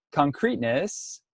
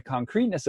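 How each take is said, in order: First: Concreteness said again slowly, with a rising tune; slow emphatic repeat. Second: Said in the usual way. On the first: Shown as a demonstration. Teacher repeats a term to webinar students, slow and stressed. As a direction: stretch out concreteness so it sinks in.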